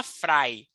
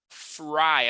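First: "fry" with a Brazilian tapped R; the mistaken "fry", R not Americanized; non-American "fry". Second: "Fry" with an American R; Americanized "fry". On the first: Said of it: "Não vai falar fry". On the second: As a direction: model "Fry" with the R curled back, untapped. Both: Shown as a demonstration.

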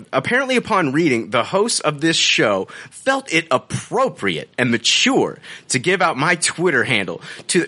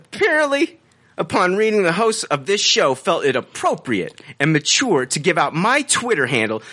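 First: Measured, mannered read-out of a review; affected reading tone. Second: High-pitched opening word, then mannered read-out; exaggerated reading tone. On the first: Acted. Host reads the reviewer's update to co-hosts, affected reading tone. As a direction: read it out with a put-on inflection. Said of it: "with this tone and this inflection". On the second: Host rereads the review after co-host's urging, exaggerated affected tone. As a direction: lay the affected inflection on thicker. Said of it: "go a little more with it".

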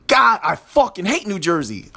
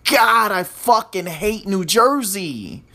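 First: A firmer, angrier retake; more aggression. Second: A half-hearted angry line, slow; first try at anger. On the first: Podcaster redoes the line with more aggression, firmer. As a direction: bite down harder on the hate. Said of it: "that was a little bit better". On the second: Podcaster tries to sound angry at New Jersey, mild and slow. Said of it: "let me say that with more, with more aggression". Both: Shown as a demonstration.

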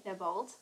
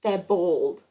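First: "bald" said close to "bold"; "bald" in her own accent, sounding like "bold"; speaker's own pronunciation. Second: "bald" with an open aw vowel, louder; correcting with a drawn Queensland "bald"; Queenslander pronunciation. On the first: Real, not acted. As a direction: say "bald" with a long o-like vowel. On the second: Shown as a demonstration. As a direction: say "bald" firmly as "bawld". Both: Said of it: "that's Queenslander".

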